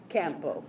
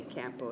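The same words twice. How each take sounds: First: "Campo" in a Spanish accent, open a. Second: "Campo" in an American accent, flat a like cat. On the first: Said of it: "I just used my Spanish accent". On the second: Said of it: "an American accent". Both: Shown as a demonstration.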